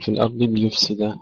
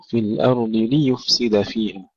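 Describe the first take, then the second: First: ليفسد with the li blurred into the yu; unclear kasra. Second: ليفسد with distinct i on ل and u on ي; clear li-yu. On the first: Teacher showing what to avoid, blurred li in ليفسد. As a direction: wrongly slur the opening vowels of ليفسد. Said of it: "لا نقول". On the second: Teacher giving the correct take, clear vowels in ليفسد. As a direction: separate li and yu in ليفسد. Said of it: "نكسر اللام ثم نضم الياء". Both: Shown as a demonstration.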